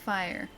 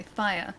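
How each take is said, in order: First: "fire" with a final R, low and soft; R sounded in fire. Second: "fire" ending in "uh", no R; R dropped in fire. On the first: Streamer demonstrating the R part, "fire" with R. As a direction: say "fire" softly, closing on an R. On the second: Streamer showing their own accent, "fire" without R. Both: Shown as a demonstration. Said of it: "don't really pronounce the, the R part".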